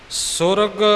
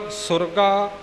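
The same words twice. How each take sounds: First: ਸੁਰਗ ending on the g, "surag"; short word ending. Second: ਸੁਰਗਾ ending in a clear "gaa"; long final vowel. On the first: Teacher giving the evening-prayer form, ਸੁਰਗ closed on g. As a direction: say ਸੁਰਗ without a final long aa. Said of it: "Rehras Sahib ਵਿੱਚ ਸੁਰਗ ਹੈ". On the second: Teacher giving the morning-prayer form, ਸੁਰਗਾ ending on aa. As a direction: say ਸੁਰਗਾ with an open aa at the end. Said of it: "ਇੱਥੇ ਸੁਰਗਾ ਹੈ". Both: Shown as a demonstration.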